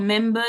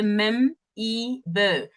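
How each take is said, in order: First: Said in the usual way. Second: "mem-e-ber" slowly broken into three parts; misspelling sounded out. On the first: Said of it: "they say mem-e-ber". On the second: Shown as a demonstration. Presenter showing the audience a misspelling, "mem-e-ber" slowly sounded out. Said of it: "You see the misspelling?".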